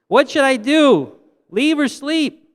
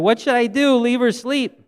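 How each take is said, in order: First: It is said at the loudest volume. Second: It is said at a louder volume.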